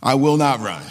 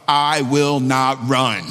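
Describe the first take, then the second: First: Laughing repeat. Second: "I will not run" spoken very slowly and firmly, word by word; slow declaration. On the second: Pastor models a vow for the congregation, slow and firm. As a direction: plant each word like a vow. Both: Shown as a demonstration. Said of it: "just say out loud".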